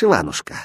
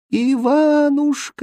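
First: Said in the usual way. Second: High, long-drawn call from far away; acted desperate far-off wail; fading distant cry. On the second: A narrator's reading. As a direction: call his name, stretched and dying away. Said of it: "издали раздался затихающий крик".

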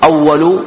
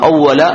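First: أول as awwalu, final u; damma ending. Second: أول as awwala, final a; fatha ending. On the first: Teacher sets two narrations side by side, damma ending. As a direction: finish أول with a u vowel. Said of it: "أو أول". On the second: Teacher gives the alternative narration, fatha ending. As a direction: finish أول with an open a. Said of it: "وفي بعض الروايات". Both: Shown as a demonstration.

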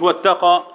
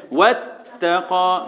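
First: Quick واتقى without holding the taa; واتقى said short, doubled taa not lingered on; wrong shadda demo. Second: Slow واتقى with the doubled taa held; drawn-out واتقى, long closure on the taa; correct shadda demo. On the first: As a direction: pass straight over the t in واتقى. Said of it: "مش". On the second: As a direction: press and hold the t in واتقى before releasing it. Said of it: "يبقى اعمل ايه". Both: Shown as a demonstration.

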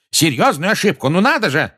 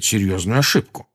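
First: Loud, high, incredulous echo; scornful shouted retort; outraged yell. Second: Said in the usual way. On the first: A narrator's reading. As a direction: throw the words back in angry disbelief. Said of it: "заорал Фадж". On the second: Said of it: "сказал Дамблдор".

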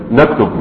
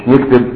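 First: "نكتب" as naktub, opening on na; standard Arabic pronunciation. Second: "نكتب" as niktib, opening on ni; colloquial pronunciation. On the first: Teacher repeating the correct form for students, classical naktub for "نكتب". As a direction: repeat "نكتب" with fatha first, then damma: naktub. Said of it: "اللغة الصحيحة أن تقول". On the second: Teacher rejecting the dialect form, colloquial niktib for "نكتب". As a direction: say "نكتب" with i in both syllables: niktib. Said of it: "مش نكتب". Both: Shown as a demonstration.

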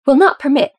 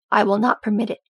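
First: Loud, higher, indignant throwing the words back; angry echo. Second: Stern, firm, weight on not. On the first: Son throws his father's refusal back in anger. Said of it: "jerking back to glare at his father". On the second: Father sternly repeating his refusal to his son. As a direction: lay it down, not a word more. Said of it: "he repeated sternly". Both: Acted.

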